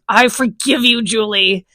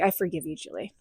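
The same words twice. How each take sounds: First: It is said in an angry voice. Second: It is said with laughter, amused.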